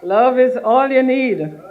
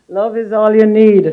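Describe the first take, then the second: First: Slow, higher and louder, stress on "you"; slow emphatic. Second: Laughing it out, much louder. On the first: Minister selling Grenada to guests, slow and emphatic. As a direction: spell out "Love is all you need" slowly and firmly. Repeats slogan for effect. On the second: Minister joking to guests about Grenada, laughing loudly. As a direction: burst into a laughing shout of "Love is all you need". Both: Real, not acted.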